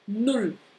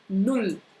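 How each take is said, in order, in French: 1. La voyelle se prononce courte. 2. La voyelle se prononce courte.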